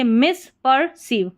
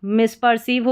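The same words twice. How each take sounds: First: मिसपर्सीव said in separate parts, mis, per, seev; broken into parts. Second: Said in the usual way. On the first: Shown as a demonstration. Teacher builds the word for learners, broken into parts. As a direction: split मिसपर्सीव into its three chunks.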